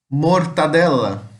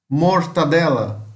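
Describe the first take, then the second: Both takes have the same delivery.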